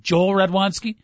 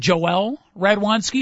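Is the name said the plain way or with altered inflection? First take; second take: plain; altered. First: The name is said the plain, ordinary way. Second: The name is said with a changed inflection. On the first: The player goes unnoticed. The speaker calls it wrong. "if you are known as Joel Radwanski, no one's looking at you" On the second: The player sounds like a prospect. The speaker calls it right. "All you do is change the inflection a little bit"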